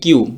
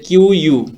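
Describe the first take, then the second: First: It is said as one syllable, 'kyoo'. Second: It is said as two parts, 'kyoo-yoo'. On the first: "just কিউর উচ্চারণটা করলেই হবে" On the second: "এটা যদি আমরা উচ্চারণ করি"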